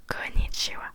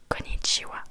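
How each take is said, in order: Both takes have the same delivery.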